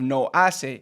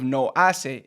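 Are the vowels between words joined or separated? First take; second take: separated; separated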